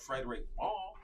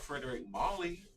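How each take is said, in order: First: The surname ends like the word 'mall'. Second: The surname ends with an extra 'ee' sound. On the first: The speaker calls it right. "We have Frederick Mall" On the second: The speaker calls it wrong. "we don't have Frederick Molly"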